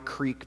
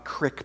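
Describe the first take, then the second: First: The vowel is long, rhyming with leek. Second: The vowel is short, rhyming with lick. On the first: "So it's a dry creek bed" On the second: "Or if you grew up where I did, ... a dry crick bed"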